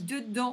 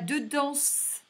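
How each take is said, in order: First: The final consonant is silent. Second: The final consonant is pronounced. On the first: The speaker calls it right. "on dit" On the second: The speaker calls it wrong. "on ne dit pas"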